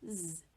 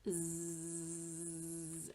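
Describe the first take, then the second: First: The buzzing sound is cut off short. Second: The buzzing sound is stretched out long. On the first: The speaker calls it right. "it's actually quite a short sound" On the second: The speaker calls it wrong. "it's really tempting to go Z like a buzzy buzzy bee"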